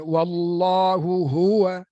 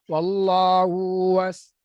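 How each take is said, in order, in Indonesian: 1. Bunyi h pertama rendah, bunyi h kedua tinggi. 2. Kedua bunyi h datar dan menyatu. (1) "Ha pertama rendah, ha kedua tinggi" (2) "Kita orang Melayu baca sama level je"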